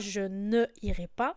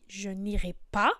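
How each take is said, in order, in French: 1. Le « ne » se prononce comme une syllabe pleine. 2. Le « ne » s'élide devant « irai ». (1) "on ne dit pas" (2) "on dit"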